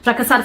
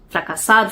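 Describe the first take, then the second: First: The word is said quickly and hurriedly. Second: The word is said at a normal speed. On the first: "Depois você vai acelerar" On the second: "você vai falar normalmente"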